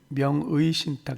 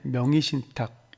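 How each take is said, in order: First: The second syllable's vowel is pronounced as 'ui'. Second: The second syllable's vowel is pronounced as 'i'. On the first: "두 번째 음절에 의자를 명의신탁 이렇게 발음해도 되고요" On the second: "발음이 좀 어렵기 때문에 명의신탁 이렇게도 허용이 됩니다"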